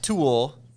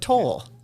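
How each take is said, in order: First: The name sounds like the word tool. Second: The name sounds like the word toll. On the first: The speaker calls it wrong. "not tool" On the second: The speaker calls it right. "but toll"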